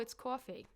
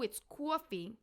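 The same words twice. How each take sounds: First: The accent is relaxed and casual. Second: The accent is exaggerated and dramatic. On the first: The speaker calls it right. "I'm saying" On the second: The speaker calls it wrong. "I'm not going"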